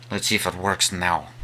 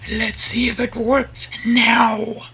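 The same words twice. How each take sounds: First: Said in the usual way. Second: Very high, slow put-on voice with some force; high test voice. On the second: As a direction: stretch it out way up high, louder. Testing high voice, then usual one.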